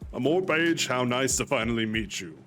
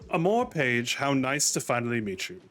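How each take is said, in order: First: The voice is deep and powerful. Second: The voice is light, not deep or powerful.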